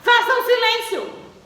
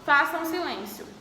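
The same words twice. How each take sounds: First: It is said forcefully, as an exclamation. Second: It is said calmly, as a plain statement.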